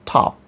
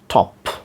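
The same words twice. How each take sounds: First: The vowel is an open, unrounded American 'ah'. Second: The vowel is a short, rounded British 'o'. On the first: "Although the American American pronunciation is top" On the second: "But we will follow this sound"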